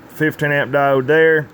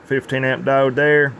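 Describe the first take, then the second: No difference in how they are said.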